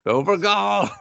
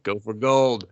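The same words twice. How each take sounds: First: GOLD called out in a high voice; high mock cheer. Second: Said in the usual way. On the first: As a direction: urge them on with a high-pitched "Go for gold".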